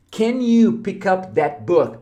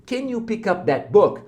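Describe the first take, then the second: First: Very slow, careful English question; slow model question. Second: Said in the usual way. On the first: Shown as a demonstration. Teacher models the question slowly for students. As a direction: say it slowly so learners catch every word. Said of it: "essa é uma pergunta". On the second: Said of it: "aprendeu agora o can you".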